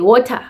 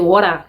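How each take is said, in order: First: Every vowel is pronounced fully. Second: The vowels are reduced and swallowed. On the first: This is how everyone at the speaker's school said it. "No swallowing of vowels" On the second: This is how others with a different accent say it. "we don't say water"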